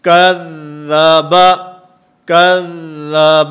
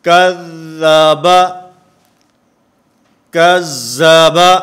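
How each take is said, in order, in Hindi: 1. दोहरा व्यंजन एक दृढ़ और रुका हुआ 'dh' ध्वनि है। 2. दोहरा व्यंजन कठोर है और 'z' जैसा सुनाई देता है। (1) "हर्फ के अंदर जमाव, ठहराव और मजबूती आएगी" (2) "ये सख्ती हो जाएगी, ज़ाल ज़ा से बदल जाएगा"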